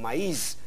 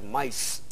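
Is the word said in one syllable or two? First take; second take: two; one. First: The vowels a and i form two separate syllables. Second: The vowels a and i merge into one syllable. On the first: The speaker calls it right. "Lo contrario es el hiato, como en maíz, en que la tilde rompe el diptongo" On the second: The speaker calls it wrong. "la vocal fuerte, la A, predominaría y tendríamos que pronunciar maíz"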